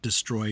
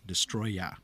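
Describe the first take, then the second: First: The name ends with an 'er' sound. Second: The name ends with an open 'ah' sound. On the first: This is the name used in the subtitles. The speaker calls it wrong. "Not Destroyer" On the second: This is the name on the official English posters. The speaker calls it right. "Y A H. Destroya"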